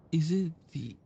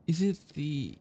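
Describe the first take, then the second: No difference in how they are said.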